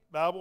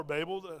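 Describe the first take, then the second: First: "Babel" said to rhyme with "scrabble"; "Babel" with a short a in the first syllable; short-a pronunciation. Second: "Babel" said to rhyme with "table"; "Babel" with a long a in the first syllable; long-a pronunciation. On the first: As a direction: say "Babel" like the word "babble". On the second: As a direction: say "Babel" as BAY-bul. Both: Shown as a demonstration. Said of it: "how you pronounce it".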